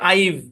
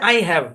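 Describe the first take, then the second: First: It is merged into one short syllable. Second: It is said as two separate full words. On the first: "এটার উচ্চারণ হচ্ছে" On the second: "এটা হচ্ছে আই হ্যাভ"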